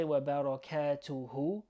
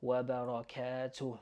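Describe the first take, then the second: First: Wa barakatuhu with an added "hu" at the end; wa barakatuhu, final h given its own vowel; full hu ending. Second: Wa barakatuh ending on a breathed h; wa barakatuh, last syllable "tooh"; stopped h ending. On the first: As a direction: end "barakatuhu" on a voiced hoo. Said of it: "you could say wa barakatuhu". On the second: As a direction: close "barakatuh" without any vowel after h. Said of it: "the way I've written it". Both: Shown as a demonstration.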